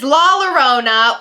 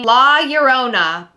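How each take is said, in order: First: The name is pronounced the English way. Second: The name is pronounced the Spanish way.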